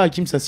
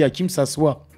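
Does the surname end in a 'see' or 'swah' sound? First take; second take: see; swah. First: The surname ends with a 'see' sound. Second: The surname ends with a 'swah' sound. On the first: The speaker calls it wrong. "on ne dit pas Hakim Sassi" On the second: The speaker calls it right. "on dit Hakim Sassoi"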